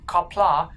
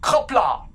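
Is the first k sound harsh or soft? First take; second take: Soft; Harsh. First: The first k sound is a plain, soft k. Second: The first k sound is much harder and harsher. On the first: The speaker calls it wrong. "so don't say K, don't say kapla" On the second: The speaker calls it right. "It's much harder than just a K"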